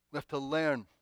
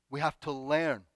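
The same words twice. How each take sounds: The two takes are said the same way.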